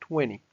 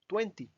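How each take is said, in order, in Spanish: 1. La t se omite. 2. La t se pronuncia claramente. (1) "Como si esta T no existiera" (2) "uno podría acostumbrarse a decir veinte"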